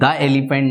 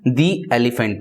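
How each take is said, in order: First: The word 'the' sounds like 'thuh'. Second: The word 'the' sounds like 'thee'. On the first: The speaker calls it wrong. "नहीं पढ़ते हैं" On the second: The speaker calls it right. "हम दी elephant पढ़ते हैं"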